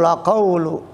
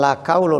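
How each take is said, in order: First: It begins with a deep throat Q sound. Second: It begins with a plain front K sound. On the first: The speaker calls it right. "Qaul pakai qaf ya" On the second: The speaker calls it wrong. "bukan la qaulu"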